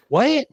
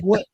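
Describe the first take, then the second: First: A much higher, rising, disbelieving what; shocked what. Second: Said in the usual way. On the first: Retold or imitated. Client hearing he is from Sirius, rising shocked what. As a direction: let the pitch shoot up in disbelief.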